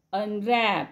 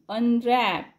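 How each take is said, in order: Both takes have the same delivery.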